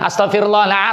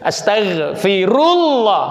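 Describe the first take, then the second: First: The phrase is said quickly and slurred. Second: The phrase is said slowly and carefully. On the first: The speaker calls it wrong. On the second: The speaker calls it right.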